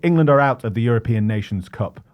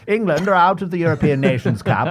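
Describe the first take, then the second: First: It is read in a plain, ordinary voice. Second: It is read in an old newsreel announcer voice.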